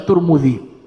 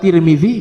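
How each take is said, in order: First: The name is said with u vowels throughout. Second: The name is said with i vowels throughout. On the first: "bisa dibaca Turmudzi" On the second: "bisa dibaca Tirmizi"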